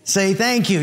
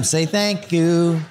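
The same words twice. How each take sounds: First: Said in the usual way. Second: Slow, drawn-out THANK YOU; parental prompting. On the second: Acted. Father reminding his son all the time, slow prompting.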